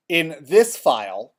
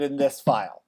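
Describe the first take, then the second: First: Slow, deliberate "this" set apart; measured phrase with weight on "this"; stress on this. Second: "this" picked out as a reminder; stress on this. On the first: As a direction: lean on the word "this". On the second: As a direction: repeat it pointedly, marking "this". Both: Real, not acted. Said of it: "Please notice I said in this file".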